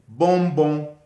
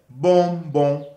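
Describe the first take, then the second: The two takes are said the same way.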